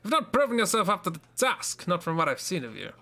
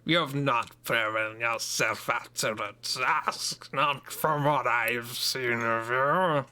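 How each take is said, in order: First: It is read in a plain, neutral tone. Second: It is read in a threatening, menacing tone.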